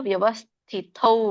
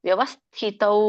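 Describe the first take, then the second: The two takes are said the same way.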